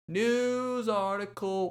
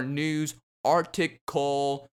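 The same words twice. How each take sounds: First: Higher, slow, drawn-out announcer voice; segment title. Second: Said in the usual way. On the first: Shown as a demonstration. Podcast host announcing his segment title, higher, slow and drawn out. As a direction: announce the segment name like a jingle. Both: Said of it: "moving it in, on in to our news article".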